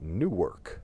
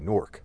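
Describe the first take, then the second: First: It is said with two syllables, New-ark. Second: It is said with one syllable, Nork.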